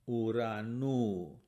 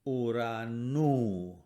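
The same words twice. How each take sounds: No difference in how they are said.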